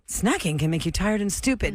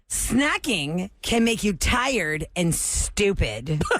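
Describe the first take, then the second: First: It is read in a plain, neutral tone. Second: It is read in an offended, indignant tone. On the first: The claim is simply reported. "I could have just read it with a different tone" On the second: The reader is insulted by the claim. "I feel very offended by the statement"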